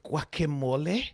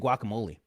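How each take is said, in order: First: The word is said with a foreign accent. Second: The word is said with an American accent. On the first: "I don't say guacamole" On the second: "I say guacamole"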